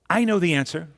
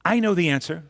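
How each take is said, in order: First: The voice sounds sure and eager. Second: The same.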